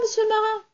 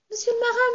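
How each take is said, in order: First: Much higher little doll voice, calling again; little doll calling the sailor again, tiny and high. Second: Much higher little doll voice calling up; little doll calling to the sailor, tiny and high. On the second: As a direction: call up from the ground in a tiny high voice. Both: Acted. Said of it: "une petite voix qui lui criait".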